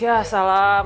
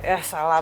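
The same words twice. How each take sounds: First: It sounds sincerely impressed. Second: It sounds mocking and sarcastic.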